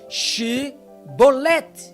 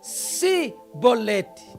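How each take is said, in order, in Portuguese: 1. A palavra começa com um som de 'sh'. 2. A palavra começa com um som de 's'. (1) "não conseguirem pronunciar esta palavra corretamente" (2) "E eles pronunciavam"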